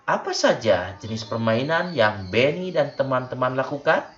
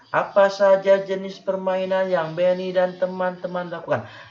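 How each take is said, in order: First: It sounds like genuinely asking for an answer. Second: It is read flatly, not like asking.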